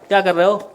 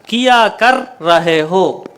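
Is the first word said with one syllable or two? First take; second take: one; two. First: The first word is reduced to one quick syllable. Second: The first word is said fully as two syllables. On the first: This is how it is spoken in everyday talk. "लेकिन बोलने में क्या कर रहे हो" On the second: This is how it is written. "अब इसको लिखो किया कर रहे हो"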